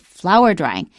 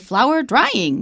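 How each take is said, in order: First: The stress falls on the word flower. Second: The stress falls on the word drying. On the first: The speaker calls it right. "It is a compound. ... We say flower drying" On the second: The speaker calls it wrong. "so we don't stress drying. ... We don't say flower drying"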